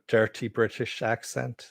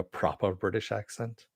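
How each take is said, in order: First: A hint of rough British accent; dirty British accent. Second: A hint of proper British, R dropped in "proper"; proper British accent. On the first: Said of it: "probably just rolling her eyes". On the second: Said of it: "What the fuck is he doing". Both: Shown as a demonstration.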